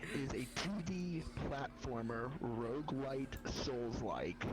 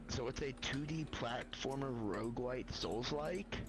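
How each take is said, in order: First: It is said slowly and deliberately. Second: It is said at a normal, quick pace.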